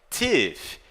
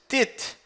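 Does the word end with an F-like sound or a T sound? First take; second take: F-like sound; T sound. First: The word ends with an F-like sound. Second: The word ends with a plain T sound. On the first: The speaker calls it right. "tem o som de F" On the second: The speaker calls it wrong. "você não diz tit, tit. Não, isso está incorreto, errado"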